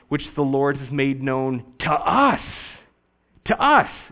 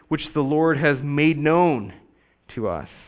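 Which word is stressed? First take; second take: us; made known. First: The emphasis falls on "us." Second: The emphasis falls on "made known." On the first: The focus is on who received the news. The speaker calls it right. "placing the emphasis where they likely placed it, and that is on the us" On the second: The focus is on the news being revealed. The speaker calls it wrong. "we put the emphasis on made known"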